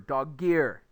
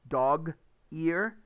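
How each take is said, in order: First: The g sound links onto the second word. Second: The words are said separately with a gap. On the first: "so it jumps over" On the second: "the gap disappears"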